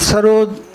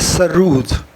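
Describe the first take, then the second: First: The second syllable sounds like 'rod'. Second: The second syllable sounds like 'rood'.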